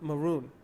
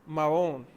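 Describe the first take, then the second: First: It is said with a plain English accent. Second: It is said with a Spanish-style accent. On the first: This is the original English term. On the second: This is what local people called him.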